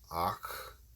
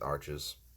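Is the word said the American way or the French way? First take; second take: French; American. First: The word is said the French way. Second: The word is said the American way. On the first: "It's like Ach" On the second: "in America we pronounce it Arches"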